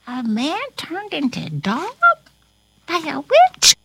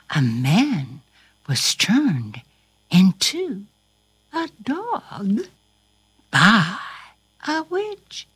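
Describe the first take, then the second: First: Rising, wondering question; incredulous question. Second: Broken up with pauses; deliberate answer. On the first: Pretend. Corona hearing the story's twist, asking incredulously. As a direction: ask it in disbelief, lifting at the end. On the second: Shown as a demonstration. Storyteller confirming the plot to Corona, deliberately. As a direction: spell it out piece by piece, starting low.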